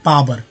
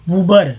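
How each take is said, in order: First: The first vowel is a long aa sound. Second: The first vowel is an oo sound. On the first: The speaker calls it right. "ना अ होगा ना ऊ होगा, आ होगा" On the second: The speaker calls it wrong. "पूबर भी नहीं"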